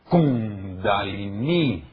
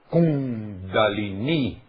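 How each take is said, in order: First: The stress falls on the first syllable. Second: The stress falls on the first syllable.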